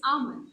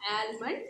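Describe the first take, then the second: First: Almond said /amən/ with the L silent; ah-mond, no L in almond; correct almond. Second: Almond with the L sounded, /ælmən/; wrong almond. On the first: Teacher giving students the correct silent-L almond. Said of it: "it's not almond". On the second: Teacher showing students the wrong way, sounding the L. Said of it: "it's almond". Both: Shown as a demonstration.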